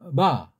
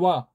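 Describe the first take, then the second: First: The lips touch briefly and lightly, a soft b. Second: The lips never close, so it sounds like w. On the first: The speaker calls it right. "붙이긴 붙이는데 오래 붙이지 않고 살짝" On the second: The speaker calls it wrong. "너무나 이걸 약하게 해서 와자라고 들려요"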